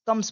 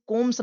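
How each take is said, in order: First: "कम्स" with a short uh, kums; correct pronunciation demo. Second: "कोम्स" with a long o, kohms; wrong pronunciation demo. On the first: Teacher corrects the reading of comes, correct pronunciation. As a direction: say "कम्स" to rhyme with sums. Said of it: "कम्स पढ़ा जाएगा". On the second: Teacher shows how not to read comes, mispronounced. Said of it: "इसे कोम्स नहीं पढ़ेंगे". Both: Shown as a demonstration.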